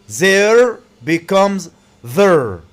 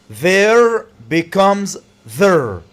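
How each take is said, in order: No difference in how they are said.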